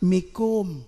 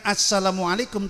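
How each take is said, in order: First: Only the final syllables are said. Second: The greeting is said in full. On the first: The speaker calls it wrong. "tapi mikum" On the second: The speaker calls it right. "bukan assalamualaikum"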